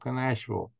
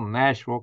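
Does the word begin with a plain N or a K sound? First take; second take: K sound; plain N. First: The word begins with a pronounced K sound. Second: The word begins with a plain N sound.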